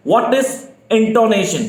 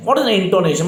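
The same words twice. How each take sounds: First: Very slow and drawn out, every word of "what is intonation?" spaced for writing; slow dictation. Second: Said in the usual way. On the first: Shown as a demonstration. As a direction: dictate it slowly for the class. (धीमी गति से "what is intonation?" लिखवाना) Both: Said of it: "आप लोग लिखना शुरू कर दें".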